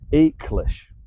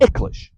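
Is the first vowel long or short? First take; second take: long; short. First: The first vowel is long, like English 'ache'. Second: The first vowel is short with a hard G. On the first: The speaker calls it wrong. "I hear the word ache. It's an ache to my ears because it's much shorter than that" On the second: The speaker calls it right. "much shorter than that. It's Icklish with a hard Gaelic G"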